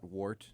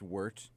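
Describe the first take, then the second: First: The vowel sounds like the one in 'war'. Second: The vowel sounds like the one in 'word'. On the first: The speaker calls it wrong. "not wart" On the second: The speaker calls it right. "Wort is pronounced wort"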